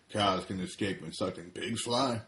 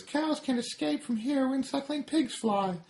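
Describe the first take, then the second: First: Farmer's voice at normal pitch; lightly voiced farmer. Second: Very high tiny-cigarette voice; smug tiny cigarette taunting; high smug cartoon voice; Smoking Cigarette. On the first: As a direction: farmer repeating the joke, normal register. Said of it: "He says to Smoking Cigarette". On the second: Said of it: "Smoking Cigarette ... says".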